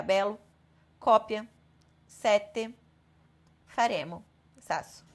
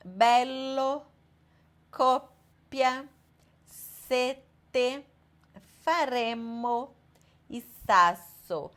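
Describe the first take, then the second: First: Bello, coppia, sete, faremo, sasso cut short, no held consonant; short single consonants. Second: Slow, pausing inside each word on its double consonant; long double consonants. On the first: Teacher showing the mistake to students, short undoubled consonants. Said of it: "se a gente for falar ela curta". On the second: Italian teacher showing students double letters, drawn out and paused. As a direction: hold the doubled consonant in bello, coppia, sete, faremo, sasso. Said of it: "um som mais longo ou pausado". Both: Shown as a demonstration.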